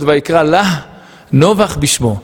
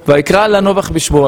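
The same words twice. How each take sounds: First: The final h of lah is breathed out strongly. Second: The final h of lah is not pronounced. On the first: The word means 'to her' with the final h pronounced. "היה צריך להיות" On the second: The word is read as 'not', meaning the name did not last. "התורה לא שמה מפיק פה"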